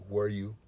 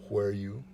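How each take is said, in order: No difference in how they are said.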